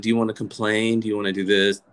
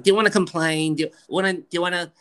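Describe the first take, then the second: First: Said in the usual way. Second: Higher-pitched New York mother impression; New York mom. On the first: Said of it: "my mom's like". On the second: Mom asking about complaining, insistent New York accent. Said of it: "she's like".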